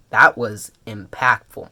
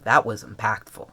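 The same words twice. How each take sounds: First: "That was impactful" slow and deliberate; "That was impactful", drawn out and firmer; emphatic repeat. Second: Said in the usual way. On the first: Real, not acted. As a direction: spell out "That was impactful" with weight on each word.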